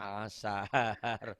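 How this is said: The word begins directly with a vowel. The speaker calls it right. "sekarang asar"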